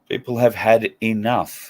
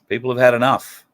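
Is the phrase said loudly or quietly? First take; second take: quietly; loudly. First: The phrase is said quietly. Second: The phrase is said loudly.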